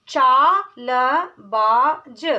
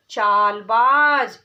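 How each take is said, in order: First: चालबाज drawn out very slowly; syllable by syllable. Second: चालबाज said whole and firm; whole word. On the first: Teacher sounding out चालबाज. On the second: Teacher blending चालबाज. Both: Shown as a demonstration. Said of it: "ऐसे ही".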